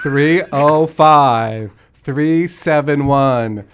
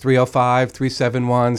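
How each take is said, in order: First: The number is said slowly. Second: The number is said quickly.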